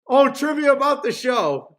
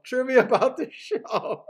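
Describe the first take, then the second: First: Louder, higher sudden realization; light up as it clicks; oh, THAT trivia; excited realization. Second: Repeated through a laugh; amused echo of the thought. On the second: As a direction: chuckle the words as you say them. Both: Real, not acted.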